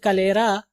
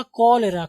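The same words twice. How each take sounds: First: कलेरा with a short ka, long LAY; common mispronunciation. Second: कॉलेरा opening on a full KO; correct pronunciation. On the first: Teacher quoting how we usually say it, short first vowel in कलेरा. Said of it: "हम इसको बोलते हैं". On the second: Teacher showing students the proper reading, full first vowel in कॉलेरा. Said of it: "हम इसको बोलते हैं कलेरा". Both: Shown as a demonstration.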